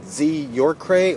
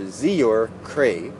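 First: "Z" alone, then "you're cray" joined as the surname; two-part name, break after "Z"; first name Z. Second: "Z, you're" run together as one name, then "cray"; two-part name, "cray" set apart as surname; first name Zior. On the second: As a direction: join "Z, you're", break before "cray". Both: Shown as a demonstration. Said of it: "I'm not sure if it's".

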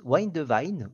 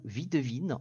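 First: "Wine de Vine" with English vowels, "Wine" as wajn and "Vine" as vajn; English pronunciation. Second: "vie de Vine" in French, "vie" as vi and "Vine" as vin with a French i; French pronunciation. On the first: Host unsure how to pronounce the name, tries it in English. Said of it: "comment ça se prononce?". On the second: Host gives the French version after the English try, French pronunciation. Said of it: "en français". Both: Shown as a demonstration.

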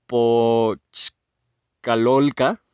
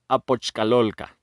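First: Slow, broken into separate syllables; halting sounding-out. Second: Said in the usual way. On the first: Real, not acted. Host first attempting the eighth level's name, halting sounding-out. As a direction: pause between chunks, ending on a rise. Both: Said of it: "no sé cómo se pronuncia".

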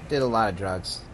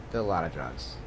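First: Said in the usual way. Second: Lower, softer repeat; quiet confession. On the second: Real, not acted. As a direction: mutter it again, guiltily. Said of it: "repeated quieter, lower".

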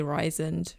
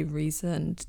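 First: Risoned with an EYE vowel, RYE-zund; alternative pronunciation. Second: Reasoned with a long EE first, REE-zund; questioned pronunciation. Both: Shown as a demonstration. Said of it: "Do we say".

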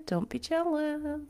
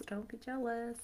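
First: Playful teasing brag; mock boast. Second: Much quieter teasing echo; soft repeat. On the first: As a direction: tease them, higher pitch. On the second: Pretend. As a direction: drop to a soft tease. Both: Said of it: "I have an amazing rat tail".

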